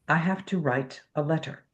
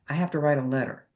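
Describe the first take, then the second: First: The T is crisp, clear and aspirated. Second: The T is soft, like a D sound.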